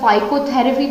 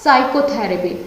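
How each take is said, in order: First: A p sound is heard at the start. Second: The word starts with a plain s sound. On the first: The speaker calls it wrong. "तो नहीं बोला" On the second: The speaker calls it right. "इसमें पी हो जाता है silent"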